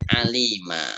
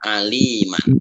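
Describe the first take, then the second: First: The word ends on a vowel, without n. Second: The word ends with an n sound. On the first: The speaker calls it right. "ketika wakaf dibaca ali alima" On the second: The speaker calls it wrong. "enggak bisa dibaca aliman"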